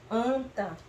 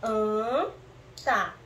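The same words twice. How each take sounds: First: Said in the usual way. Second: "Anta" split slowly, an... ta; syllable by syllable. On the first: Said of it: "Formamos a palavra anta". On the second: Shown as a demonstration. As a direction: hold "an", pause, then add "ta" in "Anta". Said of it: "Vamos colocar o an pra ver".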